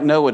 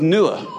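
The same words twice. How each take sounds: First: "Noah" said as NOH-ah; usual English Noah. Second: "Noah" said as NOO-ah; Quranic form of Noah. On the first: Preacher comparing the name to the Bible's, "Noah" as NOH-ah. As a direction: say "Noah" with a long o in the first syllable. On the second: Preacher citing the Quran's name for the flood's survivor, "Noah" as NOO-ah. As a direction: say "Noah" with an oo in the first syllable. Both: Shown as a demonstration. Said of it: "That sounds a lot like Noah to me".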